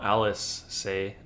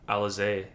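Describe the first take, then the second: First: The name is said as 'Alice say'. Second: The name is said as 'Alize'. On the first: The speaker calls it wrong. "not Alice say" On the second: The speaker calls it right. "There we go"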